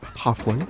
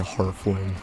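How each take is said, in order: First: The first syllable has no R sound. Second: The first syllable has an R sound. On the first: "that guy doesn't do it" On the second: "like add an R in there for no reason"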